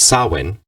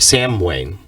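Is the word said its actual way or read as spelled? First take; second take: actual; spelled. First: The word is said its real, non-spelled way. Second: The word is read out letter by letter. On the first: The speaker calls it right. "It's the pronunciation" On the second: The speaker calls it wrong. "it's written"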